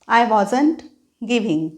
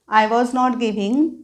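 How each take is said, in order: First: Was and not merge into one word, wasn't. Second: Was and not are said as two full words.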